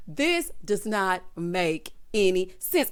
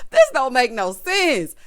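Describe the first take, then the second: First: Said in the usual way. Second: Louder, slow, slangy emphasis; emphatic slang. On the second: Shown as a demonstration. Exasperated at the show, loud and slow slang version. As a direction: lean hard into it, slow and loud.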